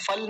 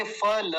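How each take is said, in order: First: फल as one syllable, ending on l; mistaken pronunciation. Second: फल as two syllables, final a sounded; correct pronunciation. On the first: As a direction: cut the final a from फल. (फल का अंतिम अ गिराकर) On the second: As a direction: open फ-ल with a full ल. (फल में ल पूरा बोलकर) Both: Shown as a demonstration. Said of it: "फल नहीं बोलेंगे".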